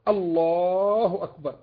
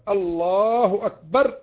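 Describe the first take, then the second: Both takes have the same delivery.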